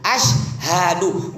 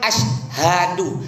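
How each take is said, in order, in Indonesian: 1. Bagian tengahnya diucapkan 'syha', tiga suku kata. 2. Bagian tengahnya diucapkan 'syha', tiga suku kata.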